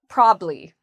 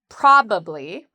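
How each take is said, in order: First: The word is said with two syllables. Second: The word is said with three syllables. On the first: "in conversation with two syllables" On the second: "You can say with uh, three syllables"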